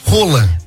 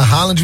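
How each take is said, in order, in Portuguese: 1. O nome é falado do jeito norueguês. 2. O nome é falado do jeito brasileiro. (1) "a pronúncia correta do nome dele é Roland" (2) "nós vamos abrasileirar e vamos falar Haaland"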